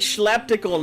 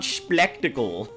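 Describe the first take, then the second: First: The name begins with a 'shl' sound. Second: The name begins with an 'spl' sound. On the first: The speaker calls it wrong. "I keep thinking schleptical" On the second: The speaker calls it right. "not splectacle"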